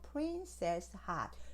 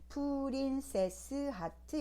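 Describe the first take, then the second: First: It is said with fewer syllables. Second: It is said with six syllables. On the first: The speaker calls it right. "요거만 기억하시고" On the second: The speaker calls it wrong. "여섯 개 아니고"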